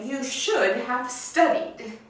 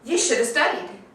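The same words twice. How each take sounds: First: Should have is pronounced fully as two words. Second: Should have is reduced to sound like shoulda. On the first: "I don't say" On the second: "I usually say"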